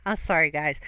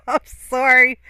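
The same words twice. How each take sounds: First: Said in the usual way. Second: Giggling apology; laughing apology. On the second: Real, not acted. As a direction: still laughing, higher and louder.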